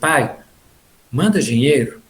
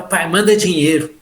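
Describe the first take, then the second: First: The request sounds gentle and affectionate. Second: The request sounds rude and demanding.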